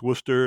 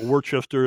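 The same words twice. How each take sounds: First: The name is said the local way. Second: The name is said the non-local way. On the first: The speaker calls it right. "it's Worcester" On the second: The speaker calls it wrong. "I know it's not Worcester"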